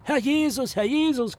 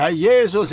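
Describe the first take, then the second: First: High, hammed-up maid's shriek; imitated screeching maid; mock shriek. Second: Loud, hammed-up echo of the shriek; mimicking the maid's shriek; mock shriek. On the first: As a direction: squeal it like a shocked maid. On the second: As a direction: repeat the maid's cry louder. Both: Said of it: "kreischte die Magd".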